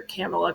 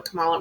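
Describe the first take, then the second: First: Kamala with the first syllable stressed, KAM-uh-la; alternate pronunciation. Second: Kamala with the middle syllable stressed, kuh-MAH-la; alternate pronunciation. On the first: Unsure co-host trying out a name, Kamala as KAM-uh-la. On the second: Unsure co-host correcting a name, Kamala as kuh-MAH-la. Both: Shown as a demonstration. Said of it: "however you say it".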